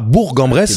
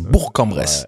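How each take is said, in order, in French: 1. Bourg se termine par un son G. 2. Bourg se termine par un son K. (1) "c'est pas Bourg-en-Bresse" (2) "il faut bien prononcer le K à la fin"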